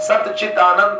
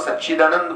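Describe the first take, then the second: First: The parts are said separately, not joined. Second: The parts run together quickly into one word.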